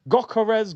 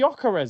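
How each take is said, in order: First: The name starts with a hard G sound. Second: The name starts with a Y sound. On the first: The speaker calls it wrong. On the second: The speaker calls it right.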